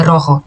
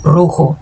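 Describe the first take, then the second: First: "rojo" with a soft zh like Portuguese; Brazilian-sounding "rojo". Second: "Rojo" with a rough throaty j, roxo; Spanish "Rojo", hard jota; strong jota. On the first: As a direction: say "rojo" with a gentle zh, the wrong way. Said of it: "E não é rojo". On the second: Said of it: "como se fosse mais puxado". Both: Shown as a demonstration.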